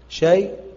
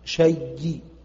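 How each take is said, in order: First: A light y ends it, fully silent. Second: A doubled y ends it with a faint vowel. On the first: The hamza's vowel is moved back and the pause is fully silent. "نقل بسكون محض" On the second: The hamza is merged into the y and part of the vowel is kept. "ورو"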